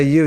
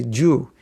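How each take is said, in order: First: Said in the usual way. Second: "Jew." said with a J sound in place of a Y; Jew pronunciation. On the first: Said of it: "You don't say "you". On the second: Shown as a demonstration. Teacher showing how Spanish speakers say you, "Jew." with a J. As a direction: say "Jew." with a hard J start, Spanish-style. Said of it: "you say "Jew".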